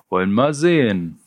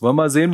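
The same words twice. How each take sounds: First: Mildly pleased, sehen falling; a light touch of smug paperwork pleasure; cheerful bureaucrat. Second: High and loud, sehen rising; loud taunt. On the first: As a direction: Ralle browsing the list like a jolly clerk. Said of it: "wie ein gut gelaunter Bürokrat". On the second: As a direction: jeer it upward at the end. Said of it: "rief der Anführer". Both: Acted.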